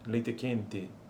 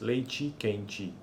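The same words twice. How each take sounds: First: The final vowels are mid, like 'e'. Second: The final vowels are high, like 'i'. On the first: This is how certain southern regions say it. "como médias as vogais em posição ata no final" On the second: This is how other regions say it. "em outras regiões aparecem como altas"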